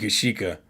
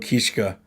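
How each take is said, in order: First: The name is said with three syllables. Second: The name is said with two syllables. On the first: This is probably the correct pronunciation. "I think it's actually Kishika" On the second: This is how the speaker likes to say it. "I always go Kishka"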